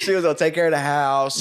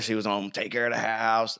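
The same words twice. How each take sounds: First: It is said in the speaker's normal voice. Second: It is said in a put-on old man voice.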